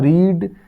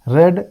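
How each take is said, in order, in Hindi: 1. स्वर लंबी 'ee' ध्वनि है। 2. स्वर छोटी 'e' ध्वनि है। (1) "पढ़ने का होता है रीड" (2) "रीड का थर्ड फॉर्म होता है रेड"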